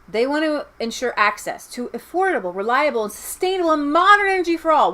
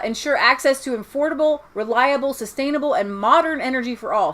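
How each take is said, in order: First: It is read slowly. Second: It is read quickly.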